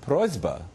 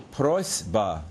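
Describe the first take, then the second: First: "prosba" with a voiced Z before the b; assimilated to lax. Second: "prosba" with a voiceless S before the b; underlying s. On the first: Lecturer showing cluster assimilation, "prosba" with s voiced to z. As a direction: say "prosba" as PROYZ-ba. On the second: Lecturer citing the underlying form, "prosba" with voiceless s. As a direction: say "prosba" as PROYS-ba, hissed s. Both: Shown as a demonstration. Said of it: "is pronounced prosba".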